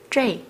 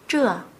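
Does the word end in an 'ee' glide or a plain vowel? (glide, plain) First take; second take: glide; plain. First: The vowel ends with an 'ee' glide. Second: The vowel is plain, with no final glide. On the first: This is the colloquial spoken form. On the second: This is the standard form.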